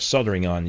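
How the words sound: It is said in an American accent, dropping the L.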